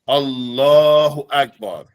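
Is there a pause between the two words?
no pause. The two words follow with no pause. The speaker calls it right. "they're in sequence"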